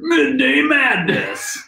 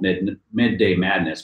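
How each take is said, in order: First: It is said in a radio announcer voice. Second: It is said in a plain, ordinary voice.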